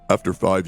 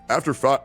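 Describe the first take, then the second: First: It is said in a deliberately lowered voice. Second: It is said in the normal speaking voice.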